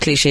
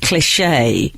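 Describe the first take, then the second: First: It is said plainly, without exaggeration. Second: It is said with an over-the-top French flourish. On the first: The speaker calls it right. "instead of cliche" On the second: The speaker calls it wrong. "he says cliche"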